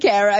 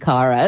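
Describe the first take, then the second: First: The name is said the way its owner says it. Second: The name is said the British-Australian way. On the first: The speaker calls it right. "instead of Kara" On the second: The speaker calls it wrong. "my British and Australian audience when call me Kara"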